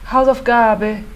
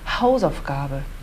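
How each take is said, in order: First: The stress is on a middle syllable. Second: The stress is on the first syllable. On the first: The speaker calls it wrong. "tônica no meio das palavras" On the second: The speaker calls it right. "A gente vai ter que puxar para o Haus"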